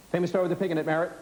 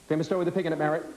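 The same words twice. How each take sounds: The two takes are said the same way.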